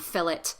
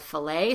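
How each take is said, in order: First: The final T sound is pronounced. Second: The final T is silent, ending in A. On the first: This is how some English accents say it. "some English accents will say um, fillet" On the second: This is the general American way. "instead of filet"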